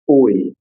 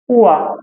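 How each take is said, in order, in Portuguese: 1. É dito como um deslize o-i, como oy. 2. É dito como um som w-a, como wa. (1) "Que eu não vou falar oi" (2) "eu vou falar o A"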